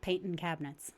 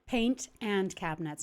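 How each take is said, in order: First: The words are slurred and run together. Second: Each word is pronounced clearly and separately. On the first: The speaker calls it wrong. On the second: The speaker calls it right.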